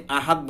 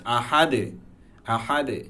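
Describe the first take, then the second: First: আহাদ with a dead stopped final "t"; wrong, no qalqalah. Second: আহাদে with a light bounced "de" at the end; light qalqalah. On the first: Teacher showing what is not allowed, আহাদ without echo. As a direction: end আহাদ abruptly, no echo on দ. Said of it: "only আহাদ বললে হবে না". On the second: Teacher correcting the reading, light "de" on আহাদে. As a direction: let the দ echo briefly in আহাদে. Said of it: "হালকা দের মতো". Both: Shown as a demonstration.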